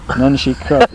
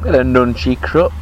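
First: Nunchy crut, echoing swapped crunchy nut; spoonerism. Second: Bit of nunchy crut, swapped sounds of crunchy nut; spoonerism. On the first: Agreeing with a friend on nunchy crut. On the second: Mocking the mix-up with nunchy crut. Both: Pretend. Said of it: "doing all the words the wrong way around".

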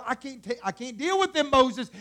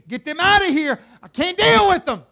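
First: Exasperated God. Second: Loud, high, fed-up shout; exasperated outburst. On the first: God complaining to Moses about the people, exasperated. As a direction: complain at moderate volume, fed up. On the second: God ordering Moses to get them out, shouting exasperated. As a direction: explode as God at the end of his patience. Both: Acted.

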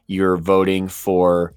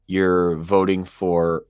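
No difference in how they are said.

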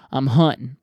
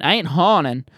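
First: "hunting" said with a short "uh" vowel, as in hunt; right vowel. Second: "haunting" said with an open "aw" vowel, like haunt; mock wrong vowel. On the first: Host correcting himself for listeners, saying "hunting" with a short uh. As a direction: clip "hunting" to a short uh sound. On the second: Host joking to listeners, saying "haunting" with a broad aw. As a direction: stretch the "au" in "haunting" so it sounds like ghosts. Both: Shown as a demonstration.

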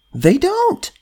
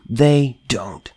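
First: "don't" jumps far higher and rises at the end; incredulous rise. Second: Said in the usual way. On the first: Real, not acted. Answering his own question about Democrats, with a high incredulous lift. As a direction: toss the repeat up in disbelief. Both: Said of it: "repeated with contrast".

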